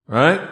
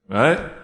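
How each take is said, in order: No difference in how they are said.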